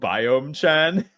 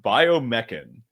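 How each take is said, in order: First: It ends with a separate cute 'chan' syllable. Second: It is said as one plain technical word. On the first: "pronounce it like uwu biome chan" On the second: "this is pronounced biomechan"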